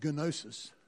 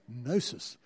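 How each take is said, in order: First: The initial G is pronounced. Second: The initial G is silent. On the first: The speaker calls it wrong. "It's not gnosis" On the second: The speaker calls it right. "you don't say the G"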